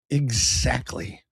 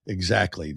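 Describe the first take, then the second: First: "Exactly" stretched very slowly; drawn-out agreement. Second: Said in the usual way. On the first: Real, not acted. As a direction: savour every syllable of "Exactly". Agrees, then repeats it normally.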